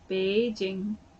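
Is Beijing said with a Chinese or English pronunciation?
Chinese. It is said with a Chinese pronunciation. Listeners in China would understand the place name. The speaker calls it right. "then they'll understand what you said"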